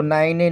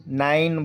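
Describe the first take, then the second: First: नाइने with the final e sounded; नाइने, extra vowel on the end; wrong pronunciation demo. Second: नाइन with a silent final e; नाइन, no vowel after the last n; correct pronunciation demo. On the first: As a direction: misread nine as two-part नाइने, ending in "ay". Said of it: "हम इसको नाइने नहीं बोलेंगे". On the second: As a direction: model नाइन, ending on the n. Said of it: "नाइन बोलेंगे". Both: Shown as a demonstration.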